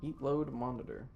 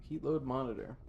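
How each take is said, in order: Both takes have the same delivery.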